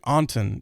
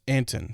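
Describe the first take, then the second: First: The first vowel is an open 'ah' sound. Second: The first vowel is the 'a' of 'ant'. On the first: This is the expected reading of the name. "I want to say like Anton" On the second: This is how the person says his own name. "but it's Anton for him"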